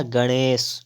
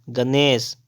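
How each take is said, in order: First: गणेश with retroflex ṇ; tongue flicked back in गणेश; correct pronunciation. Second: गणेश with a dental n; wrong pronunciation. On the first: Teacher correcting, गणेश with retroflex ṇ. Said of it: "क्या हो जाएगा". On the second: Teacher reading the error, गणेश with dental n. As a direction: say गणेश with plain n. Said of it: "गणेश हो जाएगा". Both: Shown as a demonstration.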